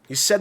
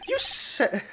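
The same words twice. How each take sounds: First: It is spoken in the speaker's natural voice. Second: It is spoken in a put-on character voice. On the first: The speaker calls it right. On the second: The speaker calls it wrong.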